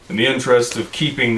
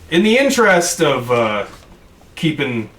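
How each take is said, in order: First: It is spoken in the character's own voice. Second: It is spoken in a voice unlike the character's. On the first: The speaker calls it right. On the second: The speaker calls it wrong.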